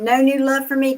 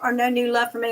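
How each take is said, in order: First: The voice rises at the end, like a question. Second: The voice falls at the end, like a statement. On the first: It asks whether there is new love. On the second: It states that there is no new love.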